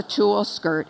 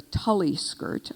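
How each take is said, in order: First: "tulle" said as one syllable, tool; "tulle skirt" the proper French way, no ee ending; correct tulle. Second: "Tully" said as TULL-ee, two syllables; "Tully skirt" with a wrong extra ee sound; mispronounced Tully. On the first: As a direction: say "tulle" as a single short tool. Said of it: "But I said it was a tulle skirt". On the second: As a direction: rhyme "Tully" with gully, stress on TULL. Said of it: "I would have said it was a Tully skirt". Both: Shown as a demonstration.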